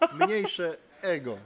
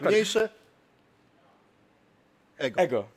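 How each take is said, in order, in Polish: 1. Te dwa wyrazy płyną razem bez pauzy. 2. Długa pauza oddziela te dwa wyrazy.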